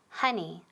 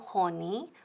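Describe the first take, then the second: First: The first vowel is an open 'uh' sound. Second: The first vowel is a rounded 'o' sound. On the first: The speaker calls it right. "O es como A" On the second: The speaker calls it wrong. "no honey"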